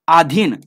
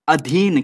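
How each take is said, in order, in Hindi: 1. पहला स्वर दीर्घ है। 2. पहला स्वर ह्रस्व है। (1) "नहीं" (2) "क्या होता है अधीन"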